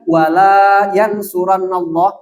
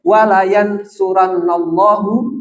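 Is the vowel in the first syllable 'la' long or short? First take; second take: long; short. First: The vowel in 'la' is held long. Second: The vowel in 'la' is kept short. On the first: God will not help. "Kalau la-nya panjang" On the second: God will surely help. "kalau lamnya pendek"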